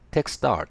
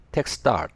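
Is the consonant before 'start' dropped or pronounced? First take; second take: dropped; dropped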